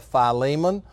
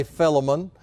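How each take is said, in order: First: "Philemon" said fy-LEE-mun; usual pronunciation. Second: "Philemon" said FILL-uh-mun; short first i, stress the FILL in "Philemon"; alternative pronunciation. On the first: Preacher naming the New Testament book, "Philemon" as fy-LEE-mun. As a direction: stress the long LEE in "Philemon". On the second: Preacher offering how some people say it, "Philemon" as FILL-uh-mun. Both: Shown as a demonstration. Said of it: "or as some people say".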